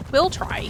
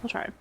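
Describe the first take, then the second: First: Upbeat repeat. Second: Said in the usual way. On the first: Real, not acted. Bright louder repeat.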